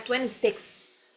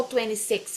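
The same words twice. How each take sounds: First: "twenty-six" slowly, with a blown f-like TH at the end. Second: Said in the usual way. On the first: Shown as a demonstration. Teacher corrects to the ordinal form, TH ending. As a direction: finish "twenty-six" on a puff of TH. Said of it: "esse T H no final". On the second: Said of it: "não fala só twenty-six".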